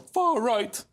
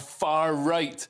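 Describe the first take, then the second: First: It is said mimicking another person's pronunciation. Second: It is said in the speaker's ordinary pronunciation.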